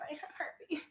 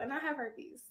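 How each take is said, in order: First: It is said in a sad, helpless tone. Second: It is said in a bold, confident tone.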